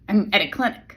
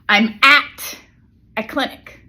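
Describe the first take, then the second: First: The word 'at' is reduced; 'clinic' carries stress. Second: The word 'at' is said strongly and stressed. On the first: The speaker calls it right. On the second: The speaker calls it wrong.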